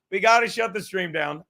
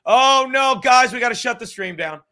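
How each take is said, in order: First: Said in the usual way. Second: Loud hammed-up panic, higher; mock panic. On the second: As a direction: play a fake alarm to shut the stream down. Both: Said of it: "I'm like".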